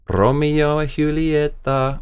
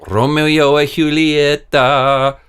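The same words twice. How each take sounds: First: "Romeo and Julieta" slow, Spanish "hulieta"; "Julieta" as Spanish "hoo-lee-eta", slow; Spanish-style brand name. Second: "Romeo and Julieta" slow, loud, Spanish "hulieta"; "Julieta" as Spanish "hoo-lee-eta", slow and louder; Spanish-style brand name. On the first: Savours cigar brand name. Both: Pretend.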